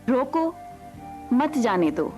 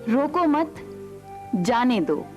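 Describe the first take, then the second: First: The break comes right after 'roko'. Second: The break comes right after 'mat'.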